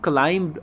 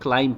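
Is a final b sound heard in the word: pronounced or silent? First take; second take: pronounced; silent. First: The word ends with an audible b sound. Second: The word ends without any b sound. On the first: The speaker calls it wrong. "इसको क्लाइंब मत पढ़ना" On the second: The speaker calls it right. "इसको क्लाइंब पढ़ना है, यहाँ पे बी silent है"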